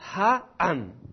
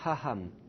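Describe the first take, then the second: First: The second syllable starts without an h sound. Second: The second syllable starts with an h sound. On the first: The speaker calls it right. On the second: The speaker calls it wrong.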